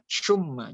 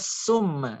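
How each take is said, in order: First: It begins with an sh sound. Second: It begins with a plain s sound. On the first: "jangan baca syumma" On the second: "Jangan baca summa"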